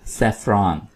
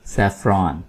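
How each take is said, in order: Both takes have the same delivery.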